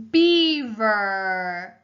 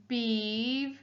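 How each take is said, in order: First: Said in the usual way. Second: "Beaver" as beav, pause, er; split into syllables. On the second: Shown as a demonstration. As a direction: break "Beaver" into two separate beats. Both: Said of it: "Er is our second syllable".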